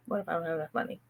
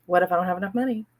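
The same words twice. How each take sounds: First: Fading murmur. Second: Rushed anxious repeat. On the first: Tapping on her money fear, the last repeat fading soft. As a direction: drop to a soft, faraway murmur. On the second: Tapping on her money fear, repeating it fast and anxious. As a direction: rattle it off fast, worried. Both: Shown as a demonstration. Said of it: "So I tapped on".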